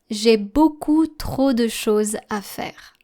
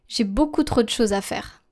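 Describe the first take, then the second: First: It is read at a slower pace. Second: It is read at a normal speaking pace. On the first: "I will now be reading the text a bit slower" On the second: "I will first be reading the text at a normal pace"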